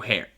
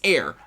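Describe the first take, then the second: First: The word begins with an h sound. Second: The word begins with a vowel, like air. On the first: The speaker calls it wrong. "I've always got this wrong" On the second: The speaker calls it right. "It's heir. Heir sounds like air"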